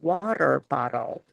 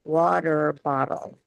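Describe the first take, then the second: First: American accent, with the T's softened to a D. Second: The same.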